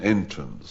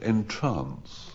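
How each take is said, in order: First: The stress is on the first syllable. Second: The stress is on the second syllable. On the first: It means a way in. "which is an entrance" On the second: It means to captivate. "Or you could pronounce it entrance"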